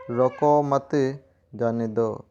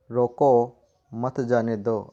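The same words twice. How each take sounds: First: रोको मत said firmly as one unit, a clear break, then जाने दो; group रोको मत, stop, then let जाने दो drop; pause after मत. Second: Stressed, drawn-out रोको, then a break before मत जाने दो; pause after रोको. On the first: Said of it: "दूसरा उदाहरण देखें ... रोकना नहीं है". (मत के बाद विराम) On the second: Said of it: "पहला उदाहरण ... उसे जाने नहीं देना है". (रोको के बाद विराम) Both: Shown as a demonstration.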